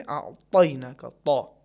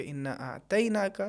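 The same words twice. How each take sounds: First: أَعْطَيْنَاكَ with a heavy, emphatic ط, louder; correct heavy ta. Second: أَعْطَيْنَاكَ with a thin Urdu ت instead of a heavy ط; wrong light ta. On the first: Teacher showing the correct heavy ta. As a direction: press the ط in أَعْطَيْنَاكَ, full and heavy. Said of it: "صحیح کیا ہے". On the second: Teacher showing the wrong ta in Kawthar. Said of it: "یہ بھی تلفظ صحیح نہیں ہوگا". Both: Shown as a demonstration.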